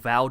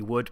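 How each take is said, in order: First: The name begins with a V sound. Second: The name begins with a W sound. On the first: It is the original Dutch form. "which is the proper uh, Dutch pronunciation" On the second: It is the anglicised local form. "the anglicised New Zealand version seems to be Wood"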